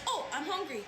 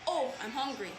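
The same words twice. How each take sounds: First: It is said in a happy tone. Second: It is said in a sad tone. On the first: "They're happy" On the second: "They're sad"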